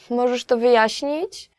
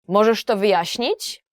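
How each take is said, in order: First: It sounds like a polite request for a favor. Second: It sounds angry and demanding.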